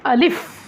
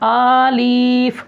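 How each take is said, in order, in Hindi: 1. शब्द जल्दी और छोटा बोला जाता है। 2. शब्द धीरे-धीरे खींचकर बोला जाता है। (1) "जल्दी पढ़ना है इसको" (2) "ये भी गलत है"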